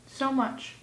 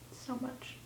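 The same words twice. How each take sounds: First: Said in the usual way. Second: Faint, voiceless whisper; very soft, breath-only repeat. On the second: Pretend. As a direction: whisper it as a lingering echo. Repeats her love declaration in whisper.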